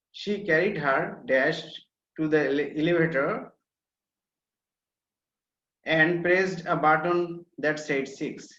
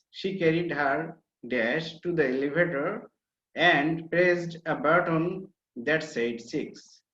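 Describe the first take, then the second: No difference in how they are said.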